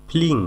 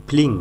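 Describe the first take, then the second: The two takes are said the same way.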